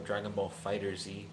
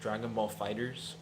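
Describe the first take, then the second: First: The last word is said as 'fighter zee'. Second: The last word is said as 'fighters'. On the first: "the show is called Dragon Ball Z, so it kind of always makes me want to call it Dragon Ball Fighter Z" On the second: "I've heard Fighters is the correct pronunciation"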